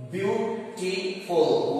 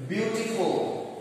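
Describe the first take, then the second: First: "beautiful" drawn out slowly, beau-ti-ful; syllable by syllable. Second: Said in the usual way. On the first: Shown as a demonstration. Teacher counting syllables for students, very slow. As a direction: stretch "beautiful" into its three parts. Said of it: "one, two, three syllables". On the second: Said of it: "If you write this word".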